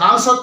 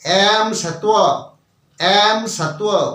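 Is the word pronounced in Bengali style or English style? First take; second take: Bengali; English. First: It is said with native Bengali vowels. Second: It is read with English-style vowels from spelling. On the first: This is the usual Bengali pronunciation. "আমসত্ব আসবে না" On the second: This is how the English spelling would be read. "ইংরেজিতে উচ্চারণ হবে অ্যাম সত্ত্ব"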